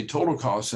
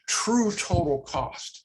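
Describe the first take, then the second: First: Said in the usual way. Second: "true" leaned on, drawn out and slow; slow down and hit "true" before total cost; emphasize "true" so the phrase lands as a new idea; stress on true. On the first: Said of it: "just to emphasize". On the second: Shown as a demonstration. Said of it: "just to emphasize that there's something more".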